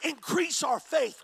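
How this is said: It sounds excited and eager.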